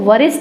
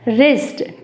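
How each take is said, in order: First: The word begins with a w sound. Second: The word begins with an r sound. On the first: The speaker calls it wrong. "गलत बोल देंगे, इसको वरिष्ठ बोल देंगे" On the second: The speaker calls it right. "सही pronunciation होगा इसका रिस्ट"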